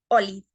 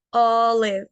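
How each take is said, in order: First: Olive said drily as "oli"; Spanish-style olive, no air on the O; dry Spanish O. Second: Olive with a long, open "aw" O, ending in V; English olive, "awlev", airy first vowel; airy short O. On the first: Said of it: "no tan seco como en el español". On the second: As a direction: say olive slowly with air on the O. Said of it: "con aire". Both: Shown as a demonstration.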